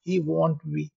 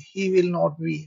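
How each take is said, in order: First: 'Will not' is contracted to one short word. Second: 'Will not' is said in full, two words. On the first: "इससे आपको कम time लगेगा और बोलने में भी perfect होगा" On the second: "लंबा लग रहा, खींच रहा, टाइम लग रहा"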